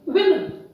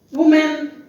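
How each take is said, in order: First: "women" said WIM-in, first vowel a short I; correct pronunciation. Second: "woman" said WUU-men for the plural women; common mispronunciation. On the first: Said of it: "The correct pronunciation is". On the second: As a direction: say "woman" ending in a clear MEN. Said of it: "People generally pronounce it wrongly". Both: Shown as a demonstration.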